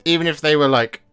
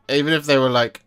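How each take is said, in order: Both takes have the same delivery.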